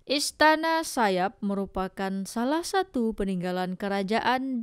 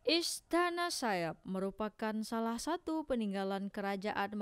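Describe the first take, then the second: First: The recording level is higher and louder. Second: The recording level is lower and quieter. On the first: "Sekarang saya naikin volumenya ke arah jam dua belas" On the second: "itu tadi tanpa pop filter di volume uh, arah jam sembilan"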